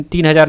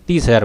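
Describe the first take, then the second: First: "तीन हज़ार" read as the wrong number, three thousand. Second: "तीस हज़ार" read as thirty thousand, the right way; correct reading. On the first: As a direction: say "तीन" as if it were the right number. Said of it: "तीन हज़ार नहीं पढ़ेंगे". ("तीन हज़ार" गलत पढ़ना) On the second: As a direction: say "तीस" clearly as the correct number. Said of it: "तीस हज़ार पढ़ेंगे". ("तीस हज़ार" सही पढ़ना) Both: Shown as a demonstration.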